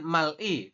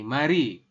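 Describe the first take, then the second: First: The l closes the first syllable, then i. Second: The consonant moves over to begin the second syllable. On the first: The speaker calls it wrong. "Harusnya kan mal i" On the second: The speaker calls it right. "bacanya langsung kayak gini"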